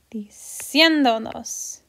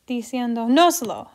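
First: "Diciéndonos" slowly, with a long, strong "cién"; stress on CIÉN. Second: "diciendo noslo" with "nos" punched, falling on "lo"; misplaced stress on NOS. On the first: Teacher showing where the accent needs to go, slow stress on "cién" in "Diciéndonos". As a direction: stretch "cién" and keep "donos" light. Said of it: "So the accent needs to go there". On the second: Teacher demonstrating the unwanted accent, stress on "nos" in "diciendo noslo". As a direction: push the weight onto "nos" in "diciendo noslo". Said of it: "the accent is naturally going noslo".

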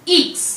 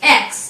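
First: ईक्स said "eeks"; ईक्स, not English "ex"; French letter X. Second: Said in the usual way. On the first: Shown as a demonstration. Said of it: "इसका pronunciation होता है". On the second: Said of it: "इसको हम इस type से लिखते हैं".

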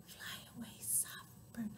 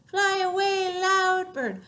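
First: Barely audible whisper; soft. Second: High, loud chanting. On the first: Sending the soft bird away, tiny whisper. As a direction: whisper it as gently as possible. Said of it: "One named Soft". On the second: Sending the loud bird away, loud chant. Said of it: "the other named Loud". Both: Shown as a demonstration.

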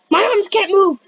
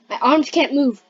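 First: Higher-pitched, panicky cry; alarmed exclamation. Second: Said in the usual way. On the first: Pretend. Player finding their arms stuck, alarmed exclamation. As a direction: raise the pitch in sudden alarm.

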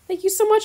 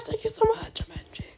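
First: Bright, louder burst of thanks; excited thanks. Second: Breathless whisper of gratitude; whispered thanks. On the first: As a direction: gush with gratitude. Thanking a trading partner excitedly. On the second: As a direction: whisper it close to the mic. Whispered thanks after loud one. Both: Real, not acted.

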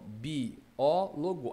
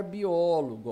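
First: BIÓLOGO slowly broken as bi-ó-lo-go; syllable by syllable. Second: Said in the usual way. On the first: Shown as a demonstration. Teacher separating the word, biólogo syllable by syllable. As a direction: pull biólogo apart into slow syllables. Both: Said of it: "Vamos separar biólogo".

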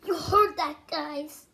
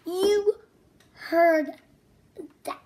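First: Said in the usual way. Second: Loud, word by word; emphatic. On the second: Acted. Loud emphatic repeat, telling children to listen. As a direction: stress each word for the kids.

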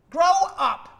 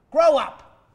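First: Louder and higher, pushing it further; louder higher shout. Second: Loud and contemptuous; shouted scolding. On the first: Therapist yells again at the patient, louder and higher. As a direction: yell it again, harder and higher. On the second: Therapist yells at the crying patient, loud and scornful. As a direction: bark it at him like a scolding parent. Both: Acted.

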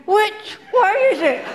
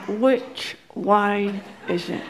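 First: Higher, panicky "Which way is it?"; frantic high shout. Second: Low, slow words through gritted teeth. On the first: Panicking husband. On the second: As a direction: hiss "Which way is it?" through clenched teeth. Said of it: "through his teeth". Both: Retold or imitated.

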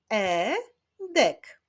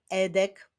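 First: "Edek" split as e, pause, dek; syllable by syllable. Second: Said in the usual way. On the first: Shown as a demonstration. Teacher clapping out a boy's name, "Edek" said syllable by syllable. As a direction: sound out "Edek" in two beats. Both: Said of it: "Wyklaszczmy sylaby w jego imieniu".

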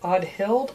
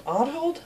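First: Audhild said AHD-hild, unsure rising question; first try at the name. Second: Audhild said AHD-hold, rising higher; second try at the name. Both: Shown as a demonstration. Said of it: "let me make sure I'm pronouncing this right".

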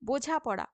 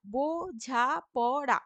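First: Said in the usual way. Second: বোঝাপড়া drawn out slowly, beat by beat; slow teacher's split of বোঝাপড়া; syllable by syllable. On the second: Shown as a demonstration. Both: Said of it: "বো মুক্ত দল".

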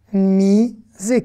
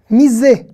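First: "misé" slowly as a long mi, then sé; syllable by syllable. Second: Said in the usual way. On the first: Shown as a demonstration. Teacher breaking down a Hebrew question, syllable by syllable. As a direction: stretch and separate both syllables of "misé". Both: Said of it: "on va faire consonne plus voyelle".

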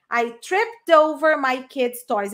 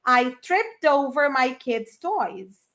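First: Slow, clear "tripped over"; slow model sentence. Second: Very slow, spaced-out repetition; very slow model. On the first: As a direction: model it slowly. (frase modelo lenta) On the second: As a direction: drag it out for repeating. (repetição bem lenta) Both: Shown as a demonstration. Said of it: "Você fala trip over".

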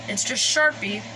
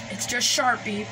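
No difference in how they are said.

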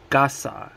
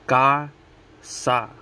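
First: Said in the usual way. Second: Casa broken into CA, pause, SA; casa as two separate, slow syllables; split into syllables. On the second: Shown as a demonstration. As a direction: say casa one syllable at a time. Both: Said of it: "Two syllables, each one".

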